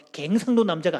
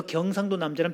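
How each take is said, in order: First: 갱상도 said with "gaeng" in place of "gyeong"; 갱상도 in local dialect vowels, "gaeng-sang-do"; dialect pronunciation. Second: Said in the usual way. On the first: Shown as a demonstration. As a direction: say 갱상도 with a broad "gaeng" first syllable. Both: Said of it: "경상도와 갱상도는 다릅니다".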